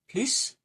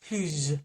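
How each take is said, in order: First: The word ends with an audible S sound. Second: The word ends with a buzzing Z sound. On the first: "with an S" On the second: "as a Z sound"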